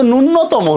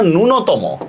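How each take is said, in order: First: ন্যূনতম with a doubled n, "nun-no-tomo"; wrong pronunciation. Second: ন্যূনতম with one short n, "nu-no-tomo", slowly; correct pronunciation. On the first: Teacher rejecting the common error, mispronounced with doubled n. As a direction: lean on a long double n in ন্যূনতম. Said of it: "এটা কিন্তু ন্যূনতম না". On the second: Teacher giving students the correct form, single-n pronunciation. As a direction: say ন্যূনতম evenly, no doubling of the n. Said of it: "এটা ন্যূনতম". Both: Shown as a demonstration.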